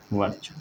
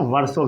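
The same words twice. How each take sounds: First: Said in the usual way. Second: वर्षों with an s sound in place of ch; the "varso" reading of वर्षों; alternative pronunciation. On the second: Shown as a demonstration. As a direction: say वर्षों as "varso", not "varcho". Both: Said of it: "कई लोग इसको वर्षों भी पढ़ते हैं".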